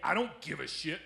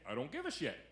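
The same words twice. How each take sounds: First: It is said in a mean, negative tone. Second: It is said in a nice, easygoing tone.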